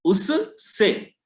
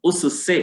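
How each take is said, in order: First: उससे drawn out very slowly as उस्से, the s doubled; wrong doubled s. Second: उससे said cleanly as उस-से, two separate s sounds; correct उससे. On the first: Teacher showing students the wrong doubled उससे, very slow. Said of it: "कहीं कहीं इसका उच्चारण उससे किया जाता है". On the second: Teacher showing students the correct उससे, clear and plain. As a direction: give उससे its proper split form, us then se. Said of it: "अशुद्ध उच्चारण माना जाएगा". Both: Shown as a demonstration.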